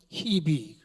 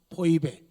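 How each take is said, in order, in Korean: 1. 이 이름은 hi-bi로 발음해요. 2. 이 이름은 poi-be로 발음해요. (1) "미국 사람들은 히비 그래요" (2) "신약성경 발음은 포이베"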